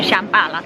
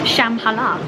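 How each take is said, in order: First: The name has a plainer English-sounding pronunciation. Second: The name has a more Asian-sounding pronunciation. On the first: The speaker calls it wrong. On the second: The speaker calls it right. "the correct way of saying it, someone corrected me"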